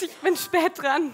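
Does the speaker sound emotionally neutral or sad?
sad. It is said in a sad, sorrowful way. "wir starten mal mit Traurigkeit"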